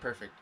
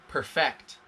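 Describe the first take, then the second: First: The stress falls on the first syllable. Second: The stress falls on the second syllable. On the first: As good as it can be. "It's so good that it could not be better" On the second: To make something perfect. "Perfect is the other pronunciation, same spelling"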